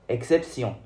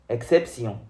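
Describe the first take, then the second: The two takes are said the same way.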